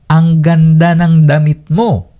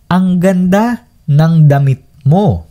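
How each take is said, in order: First: It is said at normal speed. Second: It is said more slowly.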